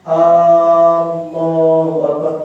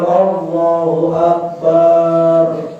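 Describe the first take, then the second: First: The opening vowel of Allah is drawn out. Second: The vowel in Akbar is drawn out. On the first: "te lapas hamzahna li Allah niki. ... salah" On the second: "Atau di lapas akbar. ... niki salah"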